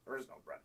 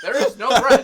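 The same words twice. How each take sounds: First: Deadpan whisper. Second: Much higher and much louder; insistent loud retort. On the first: Retold reply to the manager. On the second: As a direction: hammer it home at the manager. Retold reply, now insistent. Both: Retold or imitated.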